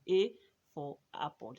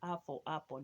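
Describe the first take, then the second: First: The A is said as the letter name. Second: The A is the short vowel of apple. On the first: The letter's sound does not match the word. The speaker calls it wrong. "It doesn't rhyme" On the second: The letter's sound matches the start of the word. The speaker calls it right. "it's connecting the two"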